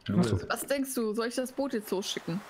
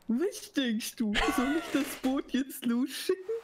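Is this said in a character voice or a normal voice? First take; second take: normal voice; character voice. First: It is said in the speaker's normal voice. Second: It is said in a put-on character voice.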